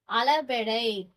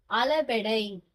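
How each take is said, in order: The two takes are said the same way.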